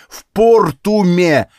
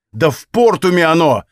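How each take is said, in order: First: Slow, loud, higher hammered-out repeat; exploding. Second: Raised, loud exasperated outburst; exploding. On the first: Hero drives the place name home to the woman, exploding slowly. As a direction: stretch ПОРТУМЕ out angrily, word by word. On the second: Hero blows up at the woman about the wine, exploding. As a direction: blurt it out in anger, higher and louder. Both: A narrator's reading. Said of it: "взорвался я".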